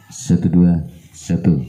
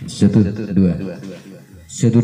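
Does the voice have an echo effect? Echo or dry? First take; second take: dry; echo. First: The voice sounds dry with no echo. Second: The voice has an echo effect added. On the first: "tanpa echo ya guys" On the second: "ini echo-nya"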